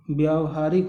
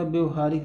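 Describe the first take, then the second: First: व्यावहारिक with long "vyaa" at the start; correct pronunciation. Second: व्यवहारिक with short first vowel, like "bev"; wrong form pronounced. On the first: Teacher giving the right spelling, correct form sounded out. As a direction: say व्यावहारिक as vyaa-va-haa-rik. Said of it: "व्यावहारिक होता". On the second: Teacher rejecting a misspelling, wrong form sounded out. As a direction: say व्यवहारिक with no long "aa" in the first syllable. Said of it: "व्यवहारिक नहीं होता". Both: Shown as a demonstration.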